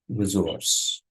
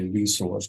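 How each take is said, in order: First: It is said with a British pronunciation. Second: It is said with an American pronunciation. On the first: "that's the British pronunciation" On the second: "In American English, we say resource"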